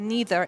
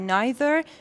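First: NEITHER with "ee" in the first syllable; American pronunciation. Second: NEITHER with "eye" in the first syllable; British pronunciation. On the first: Teacher comparing for learners, "neither" as American NEE-ther. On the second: Teacher comparing for learners, "neither" as British NIGH-ther. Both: Shown as a demonstration. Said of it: "neither American و neither British".

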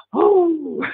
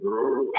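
First: High, breathy-free swoon on Oh; swooning girls. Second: Said in the usual way. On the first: Retold or imitated. Girls swooning over the handsome prince, high swoon. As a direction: squeal it like an admiring girl. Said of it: "all the girls would be going". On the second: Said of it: "all the guys would be going".

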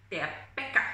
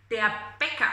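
First: Bäcker said lower, short clipped ck; Bäcker with double consonant. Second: Said in the usual way. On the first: Shown as a demonstration. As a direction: stress the hard ck in Bäcker. (Bäcker con doble consonante, más grave) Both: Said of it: "suena a doble consonante".

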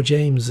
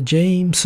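First: "James" slowly, as jei-mu-zu; James with Z ending. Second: "James" slowly, as jei-mu-su; James with S ending. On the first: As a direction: end "James" on a voiced, buzzing zu. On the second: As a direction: stretch "James" into a hissed su ending. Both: Shown as a demonstration. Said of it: "it's a subtle one".

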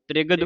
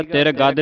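First: ਤ੍ਰਿਗਦ as one word with half r; joined, quick cluster. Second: ਤਿਰ ਗੱਦ split as tir gad; wrongly split word. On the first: Teacher models for learners, ਤ੍ਰਿਗਦ quick and joined as tri-gad. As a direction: run t and r together quickly in ਤ੍ਰਿਗਦ. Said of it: "ਤ੍ਰਿਗਦ ਬੋਲਣਾ ਇਕੱਠਾ ਹੀ". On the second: Teacher warns learners, ਤਿਰ ਗੱਦ split with full r. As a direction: give ਤਿਰ ਗੱਦ a full r, in two parts. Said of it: "ਤਿਰ ਗੱਦ ਨਹੀਂ ਬੋਲਣਾ". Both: Shown as a demonstration.

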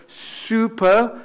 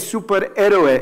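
First: Slow "superhero" starting straight on a hissed S; pure English S. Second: "superhéroe" with an E before the S, Spanish vowels; Spanish "es" onset. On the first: Teacher modelling superhero for learners, clean English S. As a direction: stretch "superhero" in English, no E first. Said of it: "es un S como un serpiente". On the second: Teacher showing what to avoid, Spanish-accented superhéroe. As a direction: say "superhéroe" as "esuperéroe". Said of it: "no es E S como España". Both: Shown as a demonstration.

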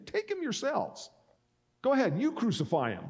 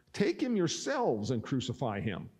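First: High-pitched, goading challenge; mocking taunt. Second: Said in the usual way. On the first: Pilate to the crowd demanding crucifixion, mocking high-pitched taunt. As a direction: throw it back at them, pitched way up. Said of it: "he's mocking them". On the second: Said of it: "Pilate said to them".

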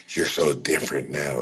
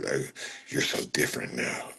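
First: Said in the usual way. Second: Breathy mocking whine, no voice; mock chatter imitating a clingy fan; whispered whiny mock. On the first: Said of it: "quoting chat". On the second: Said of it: "mocking chat, whispery".

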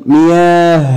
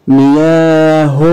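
First: مياه as miyaah; sukun ending. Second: مياه very slowly as miyaa-hun; voweled ending. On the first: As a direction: end مياه on a bare h. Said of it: "طب سكون". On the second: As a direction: draw out مياه and end in "hun". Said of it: "اتنطقت هاء في التشكيل". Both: Shown as a demonstration.

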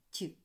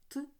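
First: "ті" with a palatalized т; short soft "ті", like ть. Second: "т" as a hard consonant, like ти; short isolated hard "т". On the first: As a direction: sound out "ті" softened, tongue raised. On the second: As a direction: sound out "т" unsoftened. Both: Shown as a demonstration. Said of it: "Тверді та м'які приголосні".

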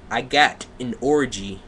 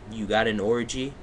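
First: Deliberate, overdone fan-fiction reading; mock dramatic reading. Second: Said in the usual way. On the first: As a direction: declaim it word by word. Mock reading, then questioning it.

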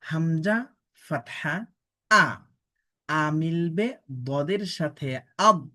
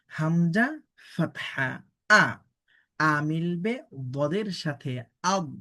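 No difference in how they are said.

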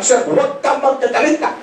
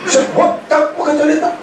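First: High mocking whine; mocking plea. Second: Even higher, laughing squeal; squealing mockery. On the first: Mocking the sponsor's plea to the audience in a high whine. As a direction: mimic the sponsor's pleading, pitched up. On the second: Topping his own mockery of the sponsor with a laughing squeal. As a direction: push the mock plea into a laughing squeal. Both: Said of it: "Inunahan ko na".

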